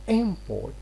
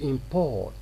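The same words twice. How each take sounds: First: The stress is on the first syllable. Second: The stress is on the second syllable. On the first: The word is a noun. "we are stressing the first syllable here" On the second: The word is a verb. "we stress the second syllable"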